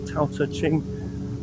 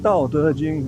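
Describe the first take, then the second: First: The title is said with anglicized sounds. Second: The title is said with Mandarin sounds. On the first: The speaker calls it wrong. "a lot of times mispronounced or misspelled" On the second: The speaker calls it right. "It's actually the"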